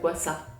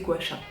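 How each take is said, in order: First: It is said with an Asian-style pronunciation. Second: It is said with a common French pronunciation. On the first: This is how Asian speakers say it. "normalement c'est, enfin en tout cas pour les asiatiques, le pronom c'est guasa" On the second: This is how most people say it now. "maintenant on entend beaucoup prononcer gua sha"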